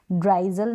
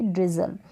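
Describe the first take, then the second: First: ड्राइजल as "dry-zul"; wrong "ai" vowel. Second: ड्रिजल as "driz-ul", short first vowel. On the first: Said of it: "ड्राइजल नहीं बोलेंगे". (ड्राइजल, आई की आवाज़ के साथ) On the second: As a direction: rhyme ड्रिजल with "fizzle". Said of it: "उसको बोलेंगे ड्रिजल". (ड्रिजल, छोटी इ के साथ) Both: Shown as a demonstration.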